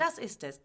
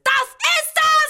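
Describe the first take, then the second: First: Said in the usual way. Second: Sehr hoch, laut, gedehnt; hysterischer Aufschrei. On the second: Acted. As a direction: es herauskreischen. Hysterischer Ausbruch. (hoch und laut gekreischt)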